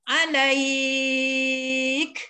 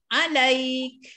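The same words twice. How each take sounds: First: The middle vowel is held very long. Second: The middle vowel is held briefly. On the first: "enam harakat macam mana?" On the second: "Dua harakat"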